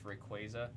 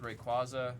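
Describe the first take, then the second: First: The middle part sounds like the word 'quasar'. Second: The middle part does not sound like 'quasar'. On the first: The speaker calls it right. "it's supposed to reference Quasar, so it's Rayquaza" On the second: The speaker calls it wrong. "I've always said Rayquaza"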